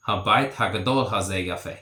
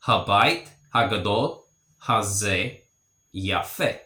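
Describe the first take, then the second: First: Habait hagadol hazeh yafe run together quickly in one breath; fluent full-speed sentence after the breakdown; at natural speed. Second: Each word set apart with short pauses. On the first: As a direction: say it the way a native would, fast. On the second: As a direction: spell out Habait hagadol hazeh yafe one word at a time. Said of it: "So this big house is beautiful". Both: Shown as a demonstration.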